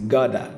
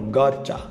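First: It is said with American English pronunciation. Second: It is read with Portuguese-like pronunciation. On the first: The speaker calls it right. "Eu vou dizer como normalmente eles dizem" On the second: The speaker calls it wrong. "eu li como se fosse lendo em português"

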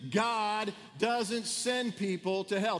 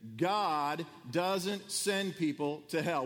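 First: It is said with lively, energetic enthusiasm. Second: It is said in a calm, plain voice.

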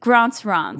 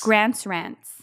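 First: It is said in a posh, non-nasal accent. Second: It is said through the nose, American-sounding. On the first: "I like the fancy version" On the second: "You're going to say it through your nose"

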